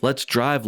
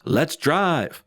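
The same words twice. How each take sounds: First: Said in the usual way. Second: A touch of mock excitement, slightly lifted; mildly excited shout. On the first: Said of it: "He repeats this". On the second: Narrator quoting a dad leaving the event, mildly excited. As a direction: lightly mimic an excited call, no real shouting. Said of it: "Butter's dad excitedly shouts".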